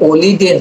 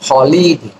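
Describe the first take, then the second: First: The word begins directly with a vowel sound. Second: The word begins with an audible h sound. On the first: The speaker calls it wrong. "এটা কিন্তু অলিডে না" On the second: The speaker calls it right. "এইচ এর উচ্চারণ হয়"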